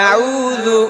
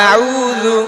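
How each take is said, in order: No difference in how they are said.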